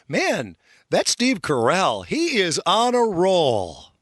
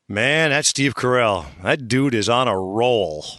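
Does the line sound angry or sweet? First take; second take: sweet; angry. First: It sounds sweet and friendly. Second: It sounds angry and evil.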